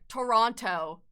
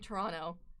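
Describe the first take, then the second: First: Toronto is pronounced the way outsiders say it. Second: Toronto is pronounced the way locals say it. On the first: Other people say it this way. The speaker calls it wrong. "they're like" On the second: The speaker says it this way. The speaker calls it right. "I say"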